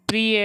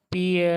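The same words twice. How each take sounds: First: प्रिय with the r after p, 'pri-ya'; तत्सम उच्चारण. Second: प्रिय without its r, 'pi-ya'; तद्भव उच्चारण. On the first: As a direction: keep the 'pr' cluster in प्रिय. (प्रिय में र साफ़ बोलें) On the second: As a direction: drop the r from प्रिय. (प्रिय को 'पिय' बोलें) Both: Shown as a demonstration. Teacher contrasts Sanskrit and Hindi forms.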